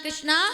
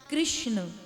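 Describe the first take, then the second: First: The name ends with a long 'aa' vowel. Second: The name ends without a final 'aa' vowel. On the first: The speaker calls it wrong. "ये शुद्ध उच्चारण नहीं है" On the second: The speaker calls it right. "क्या नाम है? कृष्ण।"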